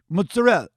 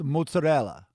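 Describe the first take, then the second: First: The ending is clipped off, New Jersey style. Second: The ending is fully pronounced, Italian style.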